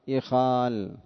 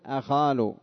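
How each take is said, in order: First: The word begins with an 'i' vowel. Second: The word begins with an 'a' vowel. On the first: This is the form most Arabs actually use. "لا هي مفتوحة ولا هي مضمومة" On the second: This is the form the regular pattern would expect. "كان حقه أن يقول أخال بفتح الهمزة"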